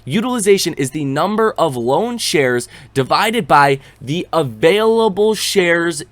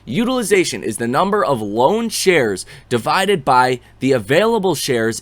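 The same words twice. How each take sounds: First: The sentence is read at a slower pace. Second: The sentence is read at a quicker pace.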